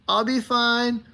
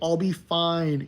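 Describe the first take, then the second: First: It is said in a high voice. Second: It is said in a normal voice.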